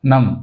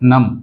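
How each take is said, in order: Both takes have the same delivery.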